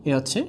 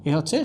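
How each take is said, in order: No difference in how they are said.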